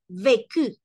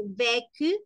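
First: "vécu" as VÉ-CU, louder full second syllable; correct accented vécu. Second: "vécu" with a rising, weaker second syllable; wrong vécu. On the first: Teacher correcting learners on the accented E, correct vécu. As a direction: give "vécu" a full é and clear ending. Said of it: "la pronunciación de la E va doble". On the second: Teacher showing what it is not, wrong vécu. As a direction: say "vécu" without the full accented é. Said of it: "No es vécu, sino vécu". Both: Shown as a demonstration.

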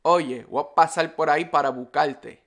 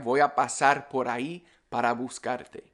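First: Puerto Rican accent, R turned to L, S dropped; quick, run-together Puerto Rican Spanish. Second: Said in the usual way. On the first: Shown as a demonstration. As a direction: say it like a Puerto Rican, "buscarte" as bucalte. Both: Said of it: "if it's in Puerto Rican Spanish".

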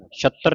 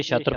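First: ਛਤਰ with a hard, doubled t; wrong tight t. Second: ਛਤਰ with a single relaxed t; loose, light t. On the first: Teacher warning students of a misreading, ਛਤਰ with tight "tt". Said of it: "ਛਤਰ ਨਹੀਂ ਪੜ੍ਹਨਾ". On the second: Teacher contrasting words for students, ਛਤਰ with light single t. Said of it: "ਇਹ ਛਤਰ ਪੋਲਾ ਹੈ". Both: Shown as a demonstration.

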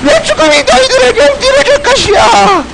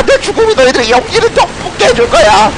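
First: High, hammed-up tearful cry; wailing dying hero. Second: Lightly hammed-up last words; rally them with mock-heroic dying words; dying hero's speech. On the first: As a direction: wail it as mock-tragic last words. 유언을 더 울부짖듯 반복함. (울부짖듯 과장된 영웅의 유언) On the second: 죽으며 비장하게 연설함. (살짝 비장한 영웅의 유언)

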